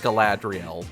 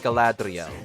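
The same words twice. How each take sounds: First: The R is a plain English R sound. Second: The R is a light tap between R and L. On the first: "you can say Galadriel" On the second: "it's more like Galadriel, like that sort of inflection"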